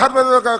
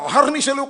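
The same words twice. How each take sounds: First: The word is pronounced in a garbled way. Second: The word is pronounced clearly and fully. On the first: The speaker calls it wrong. "అంటున్నాడు" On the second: The speaker calls it right. "అనాలి"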